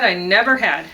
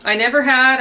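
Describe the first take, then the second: First: Loud accent on "never", letting had fall; corrected beat on never, not had; stress on NEVER. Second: Loud, high accent landing on "had"; misplaced heavy beat on had; stress on HAD. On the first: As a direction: hit the word never. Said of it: "never should". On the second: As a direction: punch had at the end instead of never. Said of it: "Had shouldn't get the accent". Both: Shown as a demonstration.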